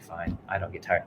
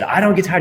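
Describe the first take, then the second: First: Grudging and much softer, going through the motions; half-hearted mumble. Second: Said with conviction. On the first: Tired runner grudgingly repeats the coach's mantra, half-hearted. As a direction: mutter it like you don't believe it. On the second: Runner finally answers his coach with the mantra, full conviction. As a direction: belt it out like you mean it. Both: Retold or imitated. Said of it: "tell me like you mean it".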